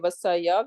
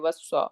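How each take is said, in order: First: The word ends with a full 'ya' syllable. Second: The final 'ya' syllable is dropped. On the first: The speaker calls it wrong. "we're not gonna say vasaya" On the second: The speaker calls it right. "we're gonna just say vasa"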